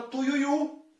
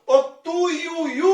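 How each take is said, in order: First: Said in the usual way. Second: "tuiuiu" high and loud with a long last u; "tuiuiu" climbing onto a held, stressed last syllable; prolonged final U. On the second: Shown as a demonstration. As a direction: stretch and hit the final u of "tuiuiu". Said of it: "Esse u se prolonga por mais tempo".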